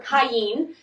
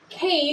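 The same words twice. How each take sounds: First: The name has a Hebrew pronunciation. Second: The name has its usual English pronunciation. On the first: "the Hebrew way" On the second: "like we normally say them"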